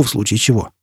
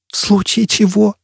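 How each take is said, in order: First: Said in the usual way. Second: «В случае чего» much higher, as a frantic question; crazed echo. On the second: Acted. Jisbella echoes Foyle before diving, crazed high voice. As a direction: repeat «В случае чего» in panicky high-pitched disbelief. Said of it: "безумным голосом повторила Джизбелла".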